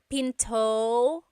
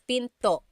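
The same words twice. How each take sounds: First: The final vowel ends smoothly, without a catch. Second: The final vowel ends abruptly with a glottal stop. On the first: The speaker calls it wrong. "It's not pinto" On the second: The speaker calls it right. "Stop it at the end. That's called a glottal stop"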